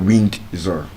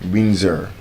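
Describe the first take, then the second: First: The D sound is pronounced in the word. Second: The D sound is silent in the word. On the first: The speaker calls it wrong. "It's not Windsor" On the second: The speaker calls it right. "the D will be silent"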